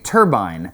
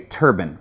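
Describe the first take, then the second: First: It is said in a British accent. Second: It is said in a North Alabama accent.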